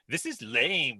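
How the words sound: It is said in an imitated character voice. The speaker calls it right.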